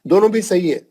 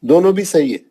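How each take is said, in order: Both takes have the same delivery.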